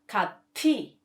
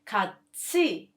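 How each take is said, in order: First: The second syllable starts with a t sound. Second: The second syllable starts with a ch sound. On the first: The speaker calls it wrong. "not 같이" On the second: The speaker calls it right. "the right pronunciation becomes 같이"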